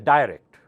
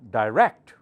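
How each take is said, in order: First: The stress is on the first syllable. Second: The stress is on the second syllable. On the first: The speaker calls it wrong. "So do not say direct. That sounds like die louder" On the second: The speaker calls it right. "Rect louder"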